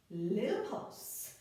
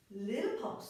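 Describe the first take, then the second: First: Little pulse, stretched slowly; slow drawn-out cue. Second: Said in the usual way. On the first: Shown as a demonstration. Instructor cueing a pulse, slow drawn-out count.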